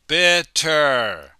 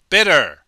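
First: The word is said slowly and carefully. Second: The word is said quickly and naturally. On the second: "But when we speak quickly, we say"

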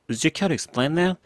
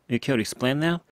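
First: 'Would you' is pronounced fully and clearly. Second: 'Would you' is said very fast and reduced. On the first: "전체 풀 문장은 앞에 would you가 들어있고요" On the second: "굉장히 빨리 가면서 이렇게 들리죠"

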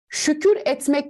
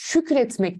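First: The vowel is kept, as two separate words. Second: The vowel is dropped, joined into one word. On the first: The speaker calls it wrong. "Şükür etmek demiyoruz" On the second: The speaker calls it right. "Şükretmek diyoruz"

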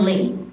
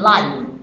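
First: The vowel is short, as in 'give'. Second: The vowel is long, as in 'five'. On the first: It is the verb meaning to reside. The speaker calls it wrong. "不念live" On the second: It means broadcast in real time. The speaker calls it right. "可是它念的时候念live"

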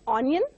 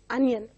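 First: The word begins with an 'oh' sound. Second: The word begins with an 'uh' sound. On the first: The speaker calls it wrong. "It is not onion" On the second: The speaker calls it right. "but it is onion"

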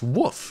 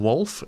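First: The word is said without an L sound. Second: The word is said with a clear L sound. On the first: The speaker calls it wrong. "otherwise I say Wolf, which is what I want to do" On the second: The speaker calls it right. "don't you mean Wolf?"

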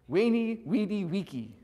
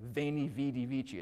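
First: It uses the classical Latin pronunciation. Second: It uses the ecclesiastical Latin pronunciation. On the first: "what it sounds like in classical Latin? If Caesar actually said that, he would have said" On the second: "we're all learning the ecclesiastical pronunciation, right? ... It sounds pretty strong"

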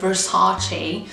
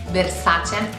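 First: The name is said with an American pronunciation. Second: The name is said with an Italian pronunciation. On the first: The speaker calls it wrong. "which is very Americanish" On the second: The speaker calls it right. "the way we pronounce it"

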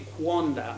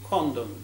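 First: The word begins with a kw sound. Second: The word begins with a plain k sound. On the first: The speaker calls it wrong. "it won't be quondam" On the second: The speaker calls it right. "Q-U in Elizabethan pronunciation was simply K"

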